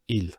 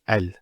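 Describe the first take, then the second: First: The article is said with an i vowel. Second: The article is said with an a vowel. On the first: The speaker calls it wrong. "it's never il" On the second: The speaker calls it right. "It's always al"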